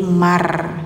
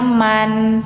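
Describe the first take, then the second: First: The n is replaced by an r sound. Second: The word ends with a clear n sound. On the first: "bacanya jadi mar" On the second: "yang awalnya man"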